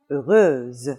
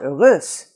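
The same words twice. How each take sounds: First: The last consonant is a buzzing Z sound. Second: The last consonant is a hissing S sound. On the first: The speaker calls it right. "you are always going to have the sound Z" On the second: The speaker calls it wrong. "So it's not heureuse"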